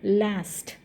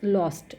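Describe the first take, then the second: First: The word is said with an American accent. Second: The word is said with a British accent. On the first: "this is actually American English" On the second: "this is called as British English"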